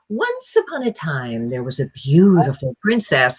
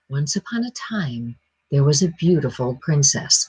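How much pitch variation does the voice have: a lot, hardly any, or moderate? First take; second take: a lot; moderate. First: The pitch swings widely up and down. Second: The pitch varies a little, not much. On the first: It is pitched for a very young child. The speaker calls it wrong. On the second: It is pitched for a more sophisticated listener. The speaker calls it right.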